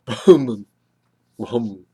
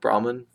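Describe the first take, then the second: First: It is said with a strong breathy h. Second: It is said without a strong breathy h. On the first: "They aspirate it. It's almost like getting hit in the gut" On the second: "Us English speakers say Brahman"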